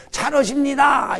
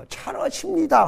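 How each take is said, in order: First: Slow, laughing honorific cheer; mock the stiff polite listener; timid honorific praise for an old master; overly polite cheer. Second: Needless honorific cheer. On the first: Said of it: "이런단 말이야". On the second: Shown as a demonstration. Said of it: "할 필요가 없어요".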